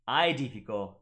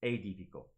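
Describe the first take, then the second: First: "edifico" said with AE as an I sound, eye-dee-fee-ko; classical Latin pronunciation. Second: "edifico" with AE as an A sound, ay-dee-fee-ko; church Latin pronunciation. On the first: Teacher shows viewers the classical Latin way, eye-dee-fee-ko. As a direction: start "edifico" with the classical AI diphthong. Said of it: "So it should be". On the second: Teacher shows viewers the wrong church Latin way, ay-dee-fee-ko. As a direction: open "edifico" with a plain ay vowel. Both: Shown as a demonstration.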